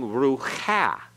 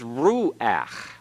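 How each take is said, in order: First: The final vowel comes after the ch sound. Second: The final vowel comes before the ch sound. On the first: The speaker calls it wrong. "we're not saying rucha" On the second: The speaker calls it right. "it's pronounced before the consonant"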